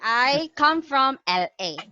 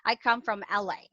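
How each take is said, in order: First: The letters L and A are said separately. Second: The letters L and A are joined together. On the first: The speaker calls it wrong. "it doesn't sound American at all" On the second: The speaker calls it right. "you have to combine them"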